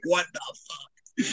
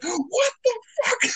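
First: Hushed, very slow mock disbelief; retold stunned disbelief. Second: Very high, drawn-out mock disbelief; retold shock. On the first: Moviegoer repeating his reaction to the twist, quiet stunned disbelief. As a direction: draw it out softly, as if dumbstruck. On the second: Moviegoer re-enacting his reaction to the twist, high shocked squeal. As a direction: squeak it out slowly, imitating stunned shock.

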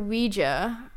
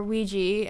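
First: "Ouija" said WEE-juh, ending in an "uh"; final A pronounced. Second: "Ouija" said WEE-jee, ending in "ee"; common pronunciation. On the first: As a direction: say "Ouija" with the A sounded at the end. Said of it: "pronounce the A at the end". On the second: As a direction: say "Ouija" with an "ee" at the end. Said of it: "as pr-, people pronounce it". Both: Shown as a demonstration.

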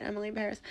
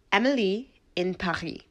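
First: "Paris" said the English way as "Pair-is", with the s sounded; plain American "Paris" with a clear final s; American pronunciation. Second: "Paris" said the French way as "Pa-ree", with no final s; Emily in "Paris" with the French "Pa-ree" ending; French pronunciation. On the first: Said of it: "I'm just like you guys, I say it". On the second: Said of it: "didn't just wanna flaunt my French accent". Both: Shown as a demonstration.

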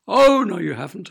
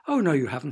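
First: Pantomime-style rebuttal; emphatic contradiction. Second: Said in the usual way. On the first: A narrator's reading. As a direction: top the child's protest with a big OH. Father tops daughter in back-and-forth. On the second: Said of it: "said her father".

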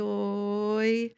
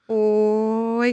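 First: Said in the usual way. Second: Louder catchphrase. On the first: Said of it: "e fui falando". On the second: Shown as a demonstration. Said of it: "porque era "Oi", né?".

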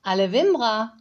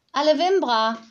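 First: Nanny answering. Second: Put-on high, loud childish call of „Wimbra“; little girl calling. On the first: Acted. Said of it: "Frau Honig antwortete". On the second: Little girl calls goodbye to the nanny in her own language. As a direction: call „Alle Wimbra“ out like a small child, much higher. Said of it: "rief die Kleine".

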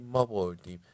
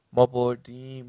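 First: Chanted, second cheer, less loud than the first; lighter repeat of the chant. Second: Loud, raised victory chant; first cheer shouted at full volume. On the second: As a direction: yell it out like the winning team. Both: A narrator's reading.

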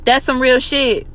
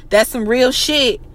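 Both takes have the same delivery.

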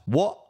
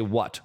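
First: Cockney "What?" with a glottal stop, higher and rising; Cockney: drop the final T on "What?"; Cockney accent. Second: Said in the usual way. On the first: Shown as a demonstration. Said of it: "They don't say the T". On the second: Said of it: "Or like when they say".

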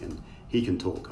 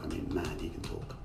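First: Said in the usual way. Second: Soft, breathy knowing repeat; quiet emphatic aside. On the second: Real, not acted. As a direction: drop to an amused near-whisper.

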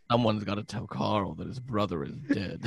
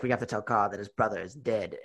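First: Soft, laughing mock concern; a hint of worried villain. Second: Low, soft mock menace; lightly voiced grave villain; grave villain quote. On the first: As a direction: fret it with a laugh. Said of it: "where he goes". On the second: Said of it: "he's like".

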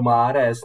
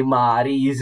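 First: "Mahrez" with an eh in the last syllable, slowly; corrected pronunciation. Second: "Mahrýs" drawn out with an ee ending; mistaken pronunciation. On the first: Quoting fans correcting each other, corrected pronunciation. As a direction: correct it to "Mahrez", ending -rez. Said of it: "ta správná výslovnost". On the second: Retelling fans' corrections to co-host, mistaken pronunciation. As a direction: quote fans saying "Mahrýs", ending -rees, slowly. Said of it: "víš, je to Mahrez". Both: Retold or imitated.

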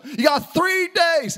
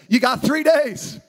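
First: Higher, slow, each word hammered; a leader refusing to wait; emphatic Joshua. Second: Slow, firm announcement; a leader giving marching orders; Joshua's blunt command. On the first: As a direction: drive home the short deadline. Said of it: "Well, you gotta turn the ship slow". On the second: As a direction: lay it down flat and certain. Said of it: "and he says". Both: Retold or imitated.

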